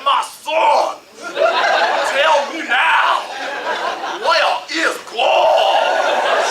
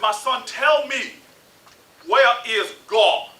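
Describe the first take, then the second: First: It is a booming Southern preacher voice. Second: It is a calm, low baritone voice.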